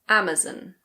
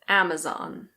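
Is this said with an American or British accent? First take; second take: British; American. First: It is said with a British accent. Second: It is said with an American accent. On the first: "In British English, people usually say Amazon" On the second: "In American English, it's normally Amazon"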